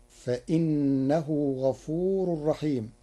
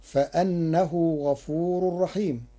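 First: Slow recitation of فإنه with i; Warsh reading. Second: Slow recitation of فأنه with an open a; Hafs reading. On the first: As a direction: recite فإنه with kasra, fa-innahu. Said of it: "بكسر الهمزة، فتصير". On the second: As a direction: recite فأنه with fatha, fa-annahu. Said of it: "بكسر الهمزة". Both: Shown as a demonstration.

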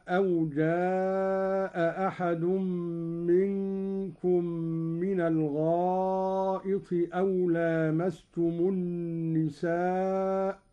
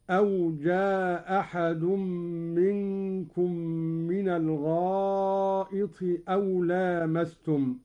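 First: Said in the usual way. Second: جاء أحد run together with one hamza, "jaa-ahad"; dropped hamza. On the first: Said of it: "قرأ قالون بإسقاط الهمزة". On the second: Shown as a demonstration. Sheikh demonstrates Qalun's reading, جاء أحد with a single hamza. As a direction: drop a hamza between جاء and أحد, keeping the long a short. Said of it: "بإسقاط الهمزة الأولى أو إسقاط الهمزة الثانية هكذا".

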